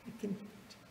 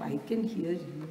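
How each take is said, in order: First: Much softer, a whispered echo. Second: Said in the usual way. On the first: Retold or imitated. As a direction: breathe it to her in a whisper. Swami reassures the old lady.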